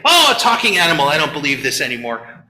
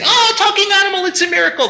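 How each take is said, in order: First: Quick scoff then a low, dismissive drop; mock skeptic. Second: Much higher, fast gushing wonder; mock amazement. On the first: Cynics dismissing the talking animal, scoffing. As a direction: brush it off like a cynic. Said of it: "everybody misses when they say". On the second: Believers gushing over the talking animal, hammed-up wonder. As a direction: marvel like a naive believer. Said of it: "Or when they say".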